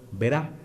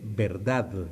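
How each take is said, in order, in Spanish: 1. Se dice sin la d final. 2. Se dice completa, con la d final. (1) "cuando hablo muchas veces digo" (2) "así, con D final"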